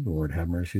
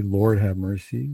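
First: Lower, softer answering line; litany response. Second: Leader's call, firmly and slowly intoned; litany invocation. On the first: Priest answering his own litany call, litany response. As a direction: drop down and softly give the response. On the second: Priest showing how the litany starts, litany invocation. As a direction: lead the litany with a firm, unhurried call. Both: Shown as a demonstration. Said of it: "is a response".

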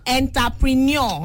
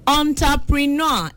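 First: "Entrepreneur" as EN-ta-prin-YAW; popular local pronunciation. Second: "Entrepreneur" as ON-ta-pri-NAW; correct French-style pronunciation. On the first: Host mimicking how they call it, "Entrepreneur" as en-ta-prin-YAW. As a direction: start "Entrepreneur" with "en", end in -nyaw. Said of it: "that's how they call it". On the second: Host giving a caller the word, "Entrepreneur" as on-ta-pri-NAW. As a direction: open "on" to start "Entrepreneur", ending -naw. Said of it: "correct pronunciation is entrepreneur". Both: Shown as a demonstration.

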